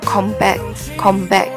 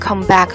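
First: It is said with Korean sounds and syllable timing. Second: It is said with English sounds and English stress. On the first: "在韩语里面读的时候叫come back" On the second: "如果你读成英文的发音come back 的话，他们也是可以听得懂的"

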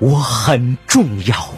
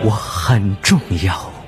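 First: It is said loudly, as a declaration. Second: It is said a little louder.

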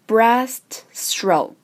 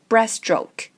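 First: The t at the end of breast is pronounced. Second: The t at the end of breast is dropped.

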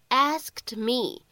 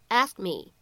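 First: Both final consonants of 'asked' are clearly pronounced. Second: The final consonants of 'asked' are barely audible. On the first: The speaker calls it wrong. "我们一般来说不会读成asked me，这样读的话呢，会比较的磕巴" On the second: The speaker calls it right. "读快了以后，前面这个单词末尾的两个辅音啊，两个爆破音就都不怎么明显了"

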